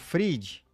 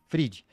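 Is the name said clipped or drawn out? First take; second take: drawn out; clipped. First: The name is said in a longer, drawn-out way. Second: The name is said short and clipped. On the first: "Ou Fried" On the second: "Deve ser seco assim"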